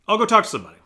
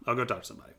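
First: Loud, high burst of resolve; plain retelling of the same line is the contrast; exclaimed. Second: Said in the usual way. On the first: Retold or imitated. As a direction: blurt it out as a sudden decision. Exclaimed decision, repeated.

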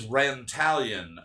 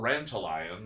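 First: Rantalion stressed on TAL, like Italian; rhymes with Italian. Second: Rantalion ending like "lion"; alternative pronunciation. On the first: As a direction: say Rantalion as ran-TAL-yun. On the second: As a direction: say Rantalion slowly as ran-tuh-LIE-un. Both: Shown as a demonstration. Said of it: "Or Rantalion, maybe".

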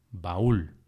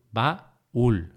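First: Said in the usual way. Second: "Baúl" broken into ba, úl; syllable by syllable. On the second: Shown as a demonstration. Teacher marking the hiato for learners, syllable by syllable. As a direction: say "Baúl" as two separate syllables. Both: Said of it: "para marcar el hiato".

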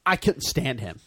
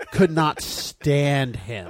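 First: Said in the usual way. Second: Could not stand him dragged out slowly, each word hit hard; emphatic disgust. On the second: Real, not acted. Repeats line more emphatically.

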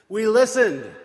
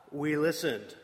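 First: Listened punched loud; loud insistent We listened; emphatic repeat. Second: Said in the usual way. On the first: Shown as a demonstration. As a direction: hit the repeat of listened hard.

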